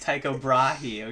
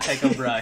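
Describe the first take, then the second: First: The surname is said with a longer 'brah' sound. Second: The surname is a short single 'bruh' syllable. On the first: The speaker calls it right. "He's Tycho Brahe" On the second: The speaker calls it wrong. "some of the sources have gone Tycho Bruh"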